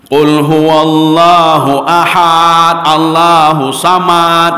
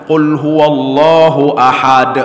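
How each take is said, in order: First: Qul huwallahu ahad, Allahu samad chanted slowly, with a drawn-out ahad and a final t; wrong recitation. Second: Qul huwallahu ahad recited slowly and correctly, ahad with a clear final d; correct recitation. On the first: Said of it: "Yang salah". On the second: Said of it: "ini bacaan yang benar". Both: Shown as a demonstration.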